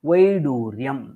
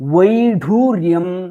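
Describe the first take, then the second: First: The middle consonant is unaspirated. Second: The middle consonant is aspirated. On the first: The speaker calls it right. "द्वितीयवारम् उच्चारितं वैडूर्यं, डकारः अल्पप्राणोपेतः अस्ति" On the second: The speaker calls it wrong. "प्रथमं यद् उच्चारितमस्ति अत्र वैढूर्यं, ढकारः महाप्राणोपेतः अस्ति"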